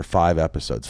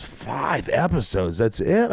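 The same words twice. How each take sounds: First: Said in the usual way. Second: Drawn-out echo, then a higher question; incredulous dismay. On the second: Retold or imitated. Actor to agent on a small episode order, incredulous. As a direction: stretch the number out in disbelief.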